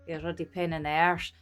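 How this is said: It is spoken in a broad Scottish accent. "we would actually say, ... you wouldn't understand that unless you're like me and talk like me"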